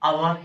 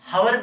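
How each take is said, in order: First: The word begins with a vowel sound. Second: The word begins with an h sound. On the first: The speaker calls it right. "इसको हम बच्चों अवर ही पढ़ते हैं" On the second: The speaker calls it wrong. "हावर नहीं पढ़ते हैं"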